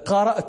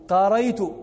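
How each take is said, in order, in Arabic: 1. الوسط فيه همزة. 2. الوسط فيه صوت ي بدلها.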